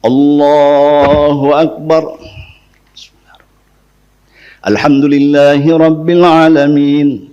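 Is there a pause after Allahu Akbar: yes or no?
yes. A silent pause comes between the two phrases.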